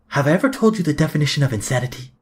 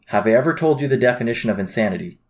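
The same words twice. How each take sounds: First: It is said imitating the character Vaas. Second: It is said in his ordinary voice.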